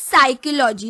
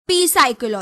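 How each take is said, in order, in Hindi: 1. इस शब्द की शुरुआत में कोई "p" ध्वनि नहीं है। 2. इस शब्द की शुरुआत में "p" ध्वनि है। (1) "We pronounce it as psychology" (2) "not P psychology"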